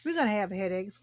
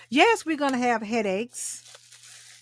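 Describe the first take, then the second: First: Said in the usual way. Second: Drawn out, slow, a bit higher; slow, rising emphasis; slow emphatic. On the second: Real, not acted. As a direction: lean on it slowly for the viewers. Repeating point to viewers.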